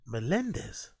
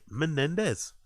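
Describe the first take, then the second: First: The middle syllable starts with an l sound. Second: The middle syllable starts with an n sound. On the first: The speaker calls it wrong. "how do you mispronounce Menendez? Melendez" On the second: The speaker calls it right. "When it's Menendez, it says it"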